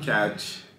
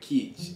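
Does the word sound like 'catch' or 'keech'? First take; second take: catch; keech. First: The vowel is open, as in 'cat'. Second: The vowel is close, as in 'keep'. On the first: The speaker calls it wrong. "Not catch" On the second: The speaker calls it right. "but keech"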